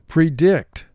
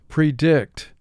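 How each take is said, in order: The two takes are said the same way.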